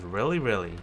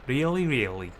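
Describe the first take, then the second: First: It is said in a North American accent. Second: It is said in a Scottish accent. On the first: The speaker calls it wrong. "a very Canadian or American. ... pronunciation" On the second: The speaker calls it right. "It should be a really, really"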